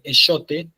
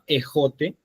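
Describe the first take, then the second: First: The middle consonant is a 'sh' sound. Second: The middle consonant is a harsh 'h' sound. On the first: This is the older pronunciation. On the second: This is the later pronunciation.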